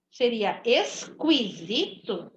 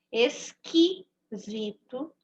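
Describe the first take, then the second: First: Esquisito said as es-kwi-zi-to, sounding the U; deliberately wrong. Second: Esquisito said slowly as es-ki-zi-to with no U sound; correct version. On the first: Teacher showing pupils the wrong way with the U sounded. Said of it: "Se fosse pra eu ouvir o som do U". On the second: Teacher showing pupils the right way to say it. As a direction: stretch Esquisito and keep the U silent. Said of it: "não tô ouvindo o som do U". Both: Shown as a demonstration.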